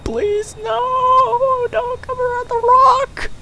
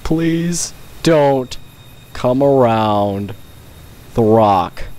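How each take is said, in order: First: Very high, crying shriek of mock terror; shrieking plea. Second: Slow, drawn-out mock-solemn begging; slow plea. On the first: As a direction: squeal it out in hammed-up terror. Begging the enemy while hiding. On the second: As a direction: stretch it out, dead serious, tongue in cheek. Same plea said again.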